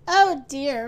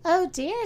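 First: Loud groan of dismay. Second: Higher-pitched, mild dismay; a doctor's light "oh dear"; concerned doctor. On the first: Mister Happy woken by a knock, groaning. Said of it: "groaned Mister Happy". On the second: Doctor seeing Mister Happy's measles, mildly concerned. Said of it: "said the doctor". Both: A narrator's reading.

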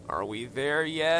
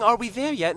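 First: Drawn-out bored whine; slow, whining impatience; whiny voice. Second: Put-on pinched, whining kid asking; whiny voice. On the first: Acted. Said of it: "Later that afternoon". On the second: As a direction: whine it like a bored child. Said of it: "in a whiny voice".

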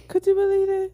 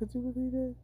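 First: Much higher, louder repeat; squealing repeat; high excited ask. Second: Said in the usual way. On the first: Shown as a demonstration. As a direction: throw it up high.

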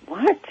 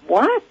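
First: High, incredulous what; a mother's mock bewildered question; baffled what. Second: High, incredulous rising what; mother's mock astonished question; baffled what. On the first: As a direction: mimic mom's puzzled reaction. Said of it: "my mother just looked at me like". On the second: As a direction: play mom's disbelief again. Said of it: "my mother just looked at me and said".

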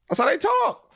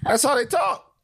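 First: Pitched way up, insisting; high insistence. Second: Insisting. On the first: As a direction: push it high to make the point. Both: Real, not acted. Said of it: "insisting to co-host".

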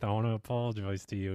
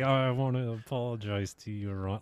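First: Faster, fed-up gritted-teeth apology; through gritted teeth. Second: Forced apology through gritted teeth. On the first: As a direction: spit it out through clenched teeth. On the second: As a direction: grit your teeth and force it out. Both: Retold or imitated. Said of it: "talking through her teeth".

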